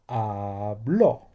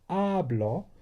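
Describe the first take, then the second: First: The stress is on the last syllable. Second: The stress is on the first syllable. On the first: It is the past tense. "So this one is what I said, and that's the past" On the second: It is the present tense. "So we're used to hablo"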